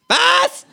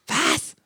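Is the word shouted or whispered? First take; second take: shouted; whispered. First: The word is shouted loudly. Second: The word is whispered softly. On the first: "Schreit es" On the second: "Flüstert das Känguru"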